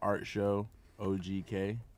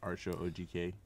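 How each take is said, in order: First: It is said slowly. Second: It is said at normal speed.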